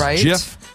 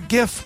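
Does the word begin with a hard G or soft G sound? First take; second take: soft G; hard G. First: It begins with a soft G, like ginger. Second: It begins with a hard G, like go. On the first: "I prefer the soft G as in ginger. It is JIF" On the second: "other people prefer GIF"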